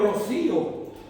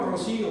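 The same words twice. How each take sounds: First: It is said with an accent from Spain. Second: It is said with a Mexican accent. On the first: "Con acento español" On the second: "con acento mexicano"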